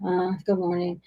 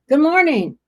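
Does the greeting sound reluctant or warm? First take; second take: reluctant; warm. First: It sounds hesitant and reluctant. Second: It sounds warm and friendly.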